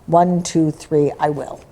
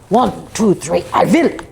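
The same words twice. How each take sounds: First: It is said in the speaker's ordinary accent. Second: It is said with a put-on German accent.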